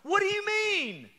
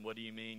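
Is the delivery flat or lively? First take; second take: lively; flat. First: It is said with lively, urgent energy. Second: It is read in a flat monotone. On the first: The speaker calls it right. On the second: The speaker calls it wrong.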